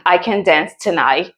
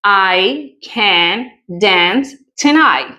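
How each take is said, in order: First: Said in the usual way. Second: Slow, carefully spelled out example; slow model sentence. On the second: Shown as a demonstration. Teacher modelling the sentence slowly for students. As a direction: read each word out slowly. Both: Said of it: "Miremos un ejemplo".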